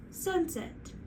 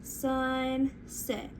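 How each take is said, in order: First: "Sunset" joined as one word, pitched higher; quick, higher "Sunset" with no gap; blended whole word. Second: "Sunset" split as SUN... SET; slow two-beat "Sunset"; stretched into syllables. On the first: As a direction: bring "Sunset" back together, lifted in pitch. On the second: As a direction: draw out each half of "Sunset". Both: Shown as a demonstration. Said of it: "Let's try sunset".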